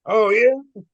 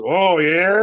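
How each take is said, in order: First: High, loud Irish retort. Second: Loud drawn-out challenge, pitch rising; retold challenge. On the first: Retold or imitated. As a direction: answer back loudly in an Irish accent. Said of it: "I heard an Irish voice". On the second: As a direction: throw it back at a heckler, louder.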